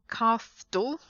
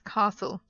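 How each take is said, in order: First: The T sound is pronounced in the middle. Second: The T sound is silent in the middle. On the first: The speaker calls it wrong. "It's not castle" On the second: The speaker calls it right. "castle is without the T"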